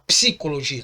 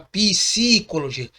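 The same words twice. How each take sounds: First: The word is said quickly with no extra vowel. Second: The word is said slowly with an extra vowel. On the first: The speaker calls it right. "você fala rápido" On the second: The speaker calls it wrong. "você não fala psicologia"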